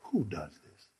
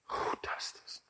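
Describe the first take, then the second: First: Low and soft, pulling the crowd in; hushed awe. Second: Breathy whisper of wonder. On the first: Preacher hushing the church, low soft awe. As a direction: drop down to a hush. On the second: Preacher whispering to the congregation in awe. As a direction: let it fall to a bare whisper. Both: Acted.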